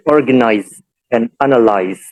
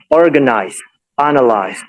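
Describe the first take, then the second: First: "organize and analyze" ending in a voiced Z sound. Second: "organize, analyze" ending in a hissed S sound. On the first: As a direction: say "organize and analyze" with final Z, not S. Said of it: "adopting Z". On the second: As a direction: say "organize, analyze" with final S, not Z. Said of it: "adopting an S". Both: Shown as a demonstration.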